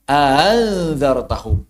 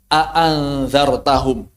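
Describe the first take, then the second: First: The second glottal stop is softened. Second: Both glottal stops are pronounced fully. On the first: "Riwayat yang lain" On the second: "hamzahnya jarang ditashil, jarang dihadaf. Jarang diibdal"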